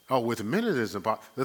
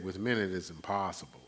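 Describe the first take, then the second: First: Quick, offhand, a bit louder, with "Oh" tossed lightly; casual confident quote. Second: Said in the usual way. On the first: Shown as a demonstration. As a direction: rattle off "Oh, with men it is impossible" as if it's obvious. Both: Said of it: "you can't be ashamed to make that kind of statement".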